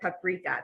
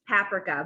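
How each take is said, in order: First: It is said the American way. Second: It is said the British way. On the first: "most people pronounce it paprika" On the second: "I'm gonna call this paprika"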